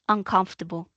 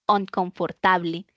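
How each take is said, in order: First: It is said with a standard English pronunciation. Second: It is said with a Spanish-influenced pronunciation. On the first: The speaker calls it right. "mi función como docente es repetírsela" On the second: The speaker calls it wrong. "mi estudiante desde el principio dice inconfortable"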